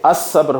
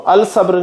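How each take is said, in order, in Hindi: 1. l दोहरे s की आवाज़ में मिल जाता है. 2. sabr से पहले l की आवाज़ बोली जाती है. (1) "बल्कि असब्र होगा" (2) "लाम नहीं पढ़ा जाएगा, तो अल सब्र नहीं होगा"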